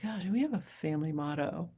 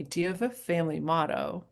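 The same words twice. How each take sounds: First: Soft whisper, wondering to herself; whispered musing. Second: Said in the usual way. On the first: Retold or imitated. Asked about a family motto, she whispers it to herself. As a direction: breathe it as a private question. Musing aloud after the interviewer's question.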